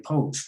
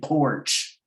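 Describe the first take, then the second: First: The R sound is dropped entirely. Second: The R sound is pronounced strongly. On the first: "some people just say poach" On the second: "enunciate that R hard like that"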